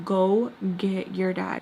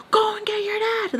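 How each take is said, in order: First: Slow retold command at usual pitch; slow, firm order. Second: High screechy mock scream; retold scream. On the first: Telling her to fetch her dad, slow firm order. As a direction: spell it out slowly, without shouting. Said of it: "So I yell at her". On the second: Repeating the order to get dad, retold high scream. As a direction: order screamed far up in pitch. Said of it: "I'm just, like, screaming".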